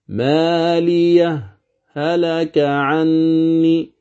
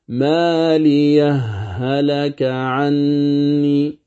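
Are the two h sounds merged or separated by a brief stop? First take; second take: stop; merged. First: A brief silent stop separates the two h sounds. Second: The two h sounds merge into one doubled h. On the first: "اسمع السكت" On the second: "أما الإدغام"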